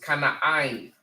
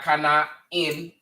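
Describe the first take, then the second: First: The last syllable sounds like 'eye-n'. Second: The last syllable sounds like 'in'. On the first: The speaker calls it right. "It's kana ein. I. You pronounce that I" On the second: The speaker calls it wrong. "That's not kana in"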